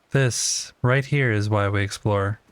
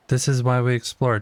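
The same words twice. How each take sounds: First: Slow, leaning hard on "here"; stress on HERE. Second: Said in the usual way. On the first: Shown as a demonstration. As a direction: drag it out, punch "here".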